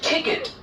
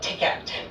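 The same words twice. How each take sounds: First: The last syllable sounds like 'kit'. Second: The last syllable sounds like 'cat'. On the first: The speaker calls it right. "It is kit" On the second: The speaker calls it wrong. "It is not ticket"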